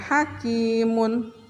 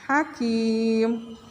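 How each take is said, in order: First: The word ends with a spoken vowel and n. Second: The word ends abruptly on the final consonant. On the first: The speaker calls it wrong. "bukan hakimun" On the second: The speaker calls it right. "tapi hakim"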